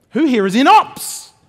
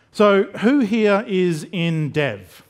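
First: Loud, high cheer rising on "ops"; rally your own team with a shout; big hyped-up shout-out to the crowd; rousing crowd call. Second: Slow question, falling away on "dev"; measured, descending roll call; drawn-out audience poll. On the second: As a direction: ask it slowly, sinking at the end. Audience poll, setting up ops cheer. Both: Pretend.

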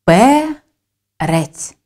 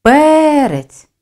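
First: Word pulled apart syllable by syllable; Перець broken slowly in two with a clear gap; split into syllables. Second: Перець with the first syllable loud, high and stretched; Перець called out, heavy stress on its first vowel. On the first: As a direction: say Перець in two separate syllables, пе, then рець. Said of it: "Вимовимо його для поділу на склади". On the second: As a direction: punch and lengthen the ПЕ in Перець. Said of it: "З більшою силою голосу ми виділяємо перший склад". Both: Shown as a demonstration.

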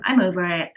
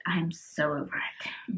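First: Said in the usual way. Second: Slower, softer and lower, fed up; weary, trailing off. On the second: Real, not acted. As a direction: sigh it out, completely done.

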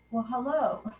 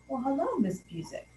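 First: Said in the usual way. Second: Lightly voiced lecherous judge, greeting her; sleazy greeting. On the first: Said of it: "and he said". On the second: Judge halting court to greet her, with a lightly sleazy tone.

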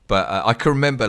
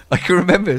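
First: Said in the usual way. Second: Laughs, then says it higher and louder; laughing. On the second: Real, not acted. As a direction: break into a laugh mid-sentence. Laughs as she restarts.

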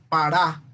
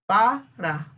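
First: "para" wrongly stressed on the last syllable, pa-RÁ; acento en RA. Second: "Para" stressed on the first syllable, PA-ra; acento en PA. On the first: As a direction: push the stress onto RA. ("para" con acento final, pa-RÁ) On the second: ("Para" con acento en PA) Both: Shown as a demonstration. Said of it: "o decimos para".

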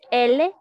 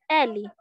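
First: L said as "EH-leh", ending in a clear e; Spanish letter name. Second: L said as "EH-lee", strong open first E; stronger Portuguese L. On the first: Teacher comparing alphabets for students, L as loud Spanish "EH-leh". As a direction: say L loudly as Spanish "ele". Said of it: "continúa el mismo". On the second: Teacher stressing the difference for students, L as strong "EH-lee". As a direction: say L as "éli", hitting the first vowel. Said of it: "por un poquito más fuerte". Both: Shown as a demonstration.

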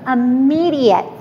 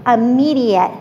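First: Said in the usual way. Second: Immediate repeated, a little louder, falling firmly; stress on immediate. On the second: Shown as a demonstration. Trainer to the audience, driving home immediate with stress. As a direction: lean on the word immediate the second time. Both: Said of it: "I'm stressing the word immediate".

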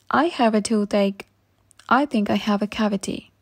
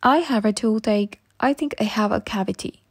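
The two takes are said the same way.

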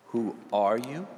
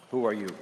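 First: "you" rising at the end; stress on YOU. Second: "Who" lifted, "are you" falling away; stress on WHO. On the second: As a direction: lean on "Who", let the rest drop. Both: Shown as a demonstration. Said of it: "Where do you put your emphasis?".

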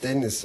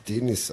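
First: Dennis said with a short open e. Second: Denis with a long closed first e. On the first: Explaining a co-host's name, Dennis with short e. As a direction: say Dennis as usual, short first vowel. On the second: Joking about the single N, Denis with long e. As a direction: stretch the first vowel, Deh-nis. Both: Shown as a demonstration. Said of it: "weil der nur ein N hat".

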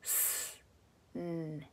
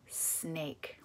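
First: "snake" softly as s, n, long a, k, with gaps; broken into phonemes. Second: Said in the usual way. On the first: Shown as a demonstration. Breaking a word apart for phonics, "snake" segmented. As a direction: pause between the sounds of "snake", very quiet. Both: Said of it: "Now break it".

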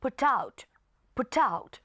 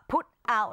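First: "put out" run together as "pu-tout"; put out linked. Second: "put out" as two separate words; put out unlinked. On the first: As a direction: carry the T of "put" onto "out". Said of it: "ลากเสียง T มาหา O ด้วย". (อ่าน "put out" ลากเสียง T ไปหา out) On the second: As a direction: keep "put" apart from "out", T not carried over. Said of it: "แทนที่เราอ่านว่า". (อ่าน "put out" แยกคำ ไม่ลากเสียง T) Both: Shown as a demonstration.

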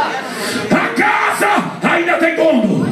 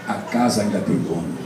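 First: Slow preached shout. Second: Low, soft, almost to himself; a quiet low refrain; low murmur. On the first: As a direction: proclaim it to the whole church. Repeated refrain, third take. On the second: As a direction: drop it low and hushed before building. Repeated refrain, first take. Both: Acted.

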